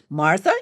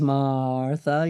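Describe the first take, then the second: First: The A vowels are kept short. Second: The A vowels are drawn out long.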